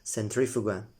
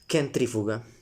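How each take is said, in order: First: It is said in a non-classical pronunciation. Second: It is said in classical Latin pronunciation.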